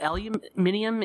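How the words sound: The word is said the Australian way. "It's called aluminium in Australia"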